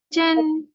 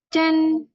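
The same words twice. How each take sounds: No difference in how they are said.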